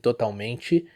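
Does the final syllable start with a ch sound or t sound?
ch sound. The final te sounds like chee. "a very common Brazilian accent"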